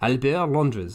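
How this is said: The name is said in a French accent.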